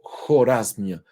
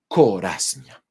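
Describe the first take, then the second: First: The name is said with a Persian pronunciation. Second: The name is said with a Spanish pronunciation. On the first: "como se pronuncia en, eh, en persa" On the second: "se llama Corasmia"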